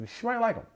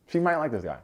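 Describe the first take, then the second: First: Sudden high squeak on "She might like him", pitch jumping way up; reconsidering. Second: Said in the usual way. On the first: Real, not acted. Vlogger takes back his doubt with a high squeaky concession. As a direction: catch yourself mid-thought and squeak it out high. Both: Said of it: "Nah, nah, nah".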